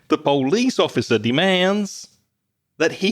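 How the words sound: It is said in a put-on American Southern accent.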